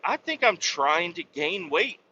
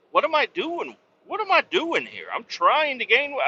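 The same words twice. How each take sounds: First: Said in the usual way. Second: High, incredulous self-reproach; exasperated self-scolding. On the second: Retold or imitated. Trucker mocking himself for gaining weight, high exasperated disbelief. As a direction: cry out at yourself in disbelief.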